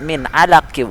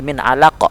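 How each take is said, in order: First: "min alaqi" with the final q voweled; continuing without a stop. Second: "min alaq" cut at the q with a bounce; qalqalah at a stop. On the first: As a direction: read "alaqi" as if carrying on, no bounce. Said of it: "Kalau kita lanjut". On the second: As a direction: end "alaq" on a popped, echoing q. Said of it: "menjadi sukun". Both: Shown as a demonstration.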